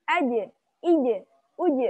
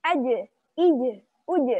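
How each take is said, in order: The two takes are said the same way.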